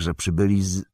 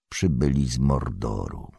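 First: Said in the usual way. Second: Hushed, low and ominous; lowered voice. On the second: A narrator's reading. Strider finishing the dreaded sentence, voice lowered. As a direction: drop nearly to a whisper. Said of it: "Ściszając głos".

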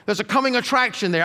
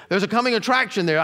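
First: "coming" leaned on and falling, the rest of the line lighter; stress on coming. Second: "attraction" leaned on and falling, "coming" kept light; stress on attraction. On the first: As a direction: hit the word "coming", then let "attraction there" drop away. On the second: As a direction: move the weight off "coming" and onto "attraction". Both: Retold or imitated. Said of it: "they think, "Well, you know, there is hope".

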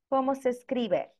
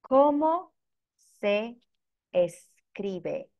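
First: Said in the usual way. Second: "¿Cómo... se... escribe?" with a clear pause after each word; teacher's word-by-word model. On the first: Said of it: "here is the question". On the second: Shown as a demonstration. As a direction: break "¿Cómo se escribe?" into separate words for learners. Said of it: "here is the question, as you can see on the screen".

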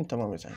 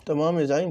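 First: تمام يا زعيم dropped low and soft, like an echo. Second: Said in the usual way. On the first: Acted. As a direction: mutter تمام يا زعيم back low and quiet. Repeated catchphrase, low echo.

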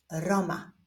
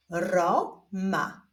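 First: Said in the usual way. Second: Stretched first syllable, pause, then second; drawn-out, divided syllables; syllable reading. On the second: Shown as a demonstration. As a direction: read it slowly as two separate syllables. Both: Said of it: "zapraszam Was do odczytywania sylab".

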